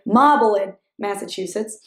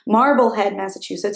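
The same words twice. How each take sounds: First: It is said in a local Massachusetts accent. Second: It is said in a plain, non-local accent.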